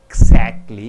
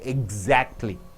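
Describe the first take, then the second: First: The x is sounded as ks. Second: The x is sounded as gz. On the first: The speaker calls it wrong. "You don't say exactly" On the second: The speaker calls it right. "you say exactly"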